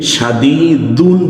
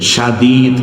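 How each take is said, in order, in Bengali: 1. শব্দের শেষে -un ধ্বনি যোগ করা হয়। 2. শব্দটি একটি খালি ব্যঞ্জনে শেষ হয়। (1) "শাদীদুন বলছি না" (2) "কিন্তু শাদীদ"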